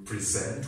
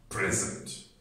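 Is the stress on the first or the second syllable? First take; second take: second; first. First: The stress is on the second syllable. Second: The stress is on the first syllable. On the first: It is a verb: to give a talk. "That's a verb" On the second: It is a noun: a gift. "The noun"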